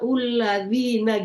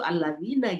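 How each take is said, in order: First: The word begins with a 'u' vowel. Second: The word begins with an 'a' vowel. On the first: The speaker calls it wrong. "suka dibaca ulladzina" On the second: The speaker calls it right. "padahal itu alladzina"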